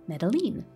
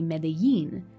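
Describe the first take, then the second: First: The double L is said as an English L. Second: The double L is said the Mexican Spanish way. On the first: "will treat the double L as we do in English" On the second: "how the double L is enunciated in certain Spanishes of the world, including the Spanish of Mexico"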